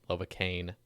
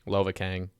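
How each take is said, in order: First: The name ends with an 'ane' sound. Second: The name ends with an 'ang' sound. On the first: The speaker calls it wrong. "makes it sound like you can't pronounce your G's" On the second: The speaker calls it right. "I say Kang"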